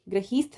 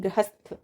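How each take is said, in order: First: गृहीस्थ said as "gra-heesth"; wrong long i. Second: गृहस्थ said as "gra-hasth"; short "ha" in गृहस्थ; correct short vowel. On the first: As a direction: stretch "hee" in गृहीस्थ. (गृहीस्थ में "ही" लंबा) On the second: (गृहस्थ में "ह", ई नहीं) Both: Shown as a demonstration. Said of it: "गृहीस्थ नहीं".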